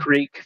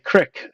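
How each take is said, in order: First: The word has a long 'ee' vowel. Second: The word has a short 'i' vowel. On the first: This is how the speaker says it, unlike locals. "they don't say creek" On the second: This is how North Dakota locals say it. "they say crick up here"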